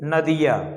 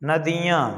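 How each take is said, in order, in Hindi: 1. अंतिम स्वर मौखिक है, नाक बंद है। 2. अंतिम स्वर अनुनासिक है, नाक से हवा निकलती है। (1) "नाक बंद करके बोलेंगे तो नदियाँ नहीं बोल पाएंगे" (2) "मुंह से तो आप बोल ही रहे हैं, नाक से भी अ, वायु निकल रही है"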